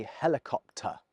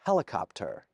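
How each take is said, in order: First: "helicopter" ending in a soft uh, no R; non-rhotic "helicopter"; British helicopter. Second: Put-on "Helicopter" in a clumsy American accent with a hard final R; a British speaker's atrocious American "Helicopter"; hammed-up American accent on "Helicopter"; bad American accent. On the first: Shown as a demonstration. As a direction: say "helicopter" the RP way, dropping the final R. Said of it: "I say helicopter". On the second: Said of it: "my atrocious attempt at an American accent".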